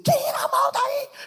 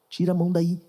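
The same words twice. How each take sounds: First: It is snapped out harshly in a sudden outburst. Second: It is said calmly in a steady, even tone.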